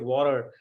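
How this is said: The word is said in an American accent. "some Am- American, that person will say water"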